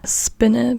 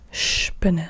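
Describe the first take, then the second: First: It begins with a plain s sound. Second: It begins with an sh sound. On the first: The speaker calls it wrong. "But you don't say Spinne" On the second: The speaker calls it right. "but you still say sp"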